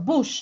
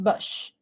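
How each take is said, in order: First: The vowel sounds like the one in book. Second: The vowel sounds like the one in blush. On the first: The speaker calls it right. "Or bush" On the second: The speaker calls it wrong. "not bush"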